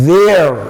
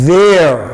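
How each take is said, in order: Both takes have the same delivery.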